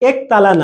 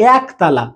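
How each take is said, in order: First: The first vowel sounds like 'e' in bed. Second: The first vowel sounds like 'a' in cat. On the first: The speaker calls it wrong. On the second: The speaker calls it right.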